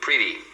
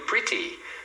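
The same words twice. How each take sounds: First: The middle t is a quick flap, like r. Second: The middle t is a crisp, full t sound. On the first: This is how American speakers usually say it. "no sotaque americano, você vai sempre ouvir" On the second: This is how British speakers say it. "Então os britânicos pronunciam mais assim"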